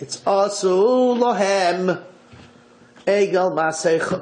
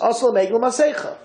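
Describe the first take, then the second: First: Lahem is emphasized and set apart. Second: It flows as one phrase, Lahem unemphasized.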